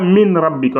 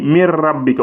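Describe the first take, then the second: First: The n is clearly pronounced before the r. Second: The n is dropped and merges into the r. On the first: The speaker calls it wrong. "on ne dit pas min rabbika, non, non" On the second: The speaker calls it right. "On va dire mir rabbika. On ignore carrément les N"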